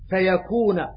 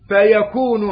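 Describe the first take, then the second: First: The word ends with a final a vowel. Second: The word ends with a final u vowel. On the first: It is the grammatical result of the command. "ابن عامر" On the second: It is a separate statement: then it is. "على قراءة الجمهور"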